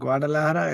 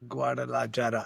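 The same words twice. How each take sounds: First: The j sounds like a breathy h. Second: The j sounds like an English j. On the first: The speaker calls it wrong. "it's not like Guadalajara" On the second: The speaker calls it right. "the J is pronounced"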